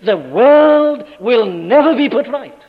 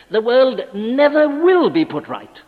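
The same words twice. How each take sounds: First: Slow, loud pulpit thunder; thundering proclamation. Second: Slow and weighty, each word pressed; solemn proclamation. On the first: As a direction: boom it out as final judgment. Loudest pulpit climax. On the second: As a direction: lay down the verdict slowly. Pulpit proclamation, slowed. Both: Acted.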